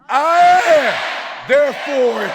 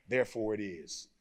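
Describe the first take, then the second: First: High, loud, shouted I am; shouted declaration. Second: Said in the usual way. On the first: Shown as a demonstration. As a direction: shout it like you mean it. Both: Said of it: "say it like you mean it".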